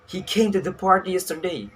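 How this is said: The stress is on "he".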